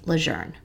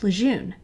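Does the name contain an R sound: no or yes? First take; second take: yes; no. First: The name is said with an R sound. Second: The name is said without an R sound. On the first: This is how the family pronounces it. "It is pronounced as if it has an R in it" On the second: This is the common local pronunciation. "like many, have always pronounced it Camp Lejeune"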